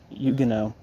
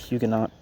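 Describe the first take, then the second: First: The word is said with its standard pronunciation. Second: The word is read the way it is spelled. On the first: The speaker calls it right. "but Huguenot" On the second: The speaker calls it wrong. "looks like Huguenot"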